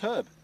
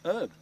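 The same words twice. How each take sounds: First: The word starts with an h sound. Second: The word starts without an h sound. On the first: This is how the speakers' side says it. The speaker calls it right. "It's got a H right there" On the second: This is how Americans say it. The speaker calls it wrong. "Don't say the H. Like, just keep it silent"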